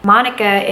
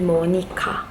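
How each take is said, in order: First: It is said with an English pronunciation. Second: It is said with a Korean pronunciation.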